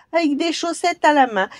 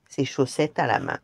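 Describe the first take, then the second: First: High, loud jeering mockery; taunt, laughing at the giant; sneering goblin. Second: Said in the usual way. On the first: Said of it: "il entendit soudain ricaner". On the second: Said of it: "narration before the goblin's mockery".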